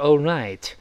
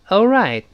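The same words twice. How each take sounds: First: It is said slowly with the final t audible. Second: It is said fast with the final t unreleased. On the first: "慢一点就是all right，那个t 还能听到" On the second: "读得更快一些呢，当然最后那个t 就会失爆了"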